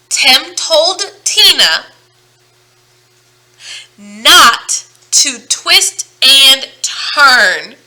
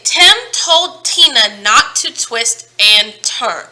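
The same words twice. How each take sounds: First: Stretched out, each t hit hard and loud; very slow tongue twister. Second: Slowly and carefully, every t crisp; slow tongue twister. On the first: Teacher repeating the twister for kids, much slower and louder. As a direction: drag it out word by word. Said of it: "Let's try it again". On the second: Teacher modelling a tongue twister for the class, slow and deliberate. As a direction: model the twister at half speed. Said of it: "try this. Say". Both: Shown as a demonstration.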